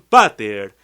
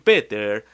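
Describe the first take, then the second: First: The first vowel is an 'ah' sound. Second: The first vowel is an 'ee' sound. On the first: The speaker calls it right. "dicen pater" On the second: The speaker calls it wrong. "Ustedes no dicen Peter"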